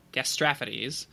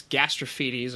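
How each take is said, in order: First: "gastrophides" as gas-TRAF-uh-deez; self-corrected to TRAF. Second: "gastrophides" as gas-truh-FEE-deez; third syllable FEE. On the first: Podcaster settling on a Greek guess, "gastrophides" said gas-TRAF-uh-deez. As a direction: stress the short second syllable of "gastrophides": gas-TRAF-uh-deez. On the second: Podcaster trying the belly bow's Greek name, "gastrophides" said gas-truh-FEE-deez. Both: Shown as a demonstration. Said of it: "little rusty on my ancient Greek pronunciation".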